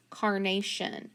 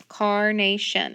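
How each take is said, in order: First: Said in the usual way. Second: "Carnation" slow and louder, car-na-tion; sounded out by syllable. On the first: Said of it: "word is carnation". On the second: Shown as a demonstration. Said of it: "On the first syllable".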